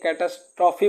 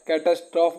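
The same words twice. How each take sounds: First: कैटास्ट्रॉफी ending in a clear "fee"; final E sounded. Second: कैटास्ट्रॉफ ending on the f sound; silent final E. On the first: Teacher shows students the second way, कैटास्ट्रॉफी ending in "fee". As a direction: say कैटास्ट्रॉफी with an "ee" after the f. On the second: Teacher shows students the first of two ways, कैटास्ट्रॉफ ending in f. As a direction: say कैटास्ट्रॉफ with no "ee" after the f. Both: Shown as a demonstration. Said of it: "बोलने का दो तरीका है".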